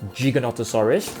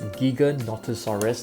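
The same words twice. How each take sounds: First: The first syllable starts with a J sound. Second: The first syllable starts with a hard G. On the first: The speaker calls it wrong. "not Giganotosaurus" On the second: The speaker calls it right. "actually pronounced as Giganotosaurus ... Giga as in gigabyte"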